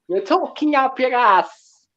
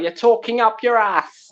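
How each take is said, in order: First: It is said in a Jamaican accent. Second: It is said in his ordinary accent.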